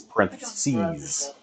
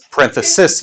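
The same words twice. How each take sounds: First: "parentheses" ending in a long "seez"; plural ending. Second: "Parenthesis" ending in a short "sis"; singular ending. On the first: Teacher contrasting plural with singular, "parentheses" with long "seez". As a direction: draw out the final "seez" in "parentheses". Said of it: "Singular and plural". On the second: Teacher contrasting singular with plural, "Parenthesis" with short "sis". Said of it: "With an I at the end, it's a singular". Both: Shown as a demonstration.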